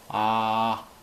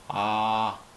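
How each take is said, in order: No difference in how they are said.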